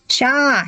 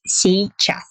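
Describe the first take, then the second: First: The word is clipped to one short syllable. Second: The word is said fully with both syllables. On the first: It is casual, fast everyday speech. The speaker calls it wrong. "when the Russians speak fast, they don't control themselves, and they often pronounce this word like «ща»" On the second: It is the standard careful form. The speaker calls it right. "But the correct pronunciation is, of course, сейчас"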